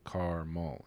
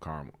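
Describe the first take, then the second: First: The word is said with two syllables. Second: The word is squeezed into one syllable. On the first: "It's two syllables" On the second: "It's like one syllable"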